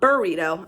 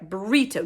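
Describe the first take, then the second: First: It begins with 'bur', a vowel before r. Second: It begins with 'bri', no vowel before r. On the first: It names the Mexican food. The speaker calls it wrong. "not burrito" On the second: It names the artist. The speaker calls it right. "That's right"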